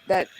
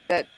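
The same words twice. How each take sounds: The two takes are said the same way.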